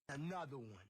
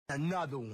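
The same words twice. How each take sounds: First: It is said fairly quietly. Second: It is said loudly.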